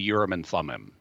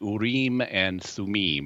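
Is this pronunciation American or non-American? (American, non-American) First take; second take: American; non-American. First: The term is said the American way. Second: The term is said in a non-American way.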